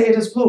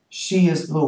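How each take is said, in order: First: "It is blue." pitched higher as the odd, wrong choice; raised voice on the incorrect "It is blue."; wrong version. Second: Said in the usual way. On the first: Shown as a demonstration. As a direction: lift "It is blue." up high to mark it as what we don't say. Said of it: "We couldn't say". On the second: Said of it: "But in German we say".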